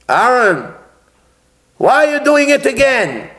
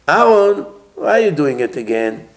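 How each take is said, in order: First: It is said in a harsh, scolding tone. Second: It is said in a gentle, empathetic tone. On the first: The speaker calls it wrong. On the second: The speaker calls it right.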